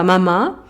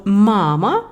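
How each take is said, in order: First: Mama with the final MA carrying the stress; stress on last syllable. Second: Mama with the first MA drawn out and stressed; stress on first syllable. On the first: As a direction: say mama French-style, weight at the end. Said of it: "et pas mama". (mama accentué sur la dernière syllabe) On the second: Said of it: "pourquoi nous disons mama et pas". (mama accentué sur la première syllabe) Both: Shown as a demonstration.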